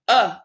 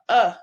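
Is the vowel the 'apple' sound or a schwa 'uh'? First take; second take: schwa; schwa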